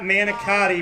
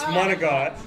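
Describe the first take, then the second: First: The word has a common English-style pronunciation. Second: The word has a clipped Italian-style pronunciation. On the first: The speaker calls it wrong. "it's not manicotti, my lord" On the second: The speaker calls it right. "It's monagot"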